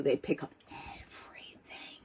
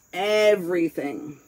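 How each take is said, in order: First: Hushed unvoiced whisper on everything. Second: Said in the usual way. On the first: Real, not acted. Telling the listener kids catch everything, whispered. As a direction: drop to a secret whisper.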